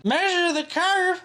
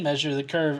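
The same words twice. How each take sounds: First: High, drawn-out mock voice; slow, high-pitched taunt; mocking commenter. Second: Said in the usual way. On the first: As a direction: read it as a jeering commenter. Mock reading of troll comment.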